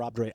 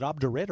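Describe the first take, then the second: First: Quick "obdurate" with a long -ate ending; "obdurate" said OB-der-ATE. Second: Quick "obdurate" with a short -it ending; "obdurate" said OB-der-it. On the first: Host weighing two readings, "obdurate" as OB-der-ATE. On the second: Host weighing two readings, "obdurate" as OB-der-it. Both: Shown as a demonstration. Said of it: "Is it obdurate or obdurate?".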